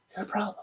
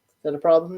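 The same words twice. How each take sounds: First: Hushed, pointed question; whispered challenge. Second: Said in the usual way. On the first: Real, not acted. Host questioning Nick about crying, whispered challenge. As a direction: whisper it as a quiet dare.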